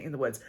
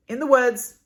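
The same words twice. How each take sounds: First: In the Woods said lower and softer, Woods falling; corrected title. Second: In the Woods with Woods said high and loud; wrong title stress. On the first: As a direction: settle In the Woods down low and soft. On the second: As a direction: punch Woods up high, a slip. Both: Shown as a demonstration. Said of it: "or not, excuse me".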